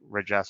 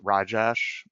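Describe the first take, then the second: First: The first vowel sounds like a short 'eh'. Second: The first vowel sounds like a long 'ah'. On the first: The speaker calls it wrong. "R R E J E S H" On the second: The speaker calls it right. "it's really pronounced Rajesh"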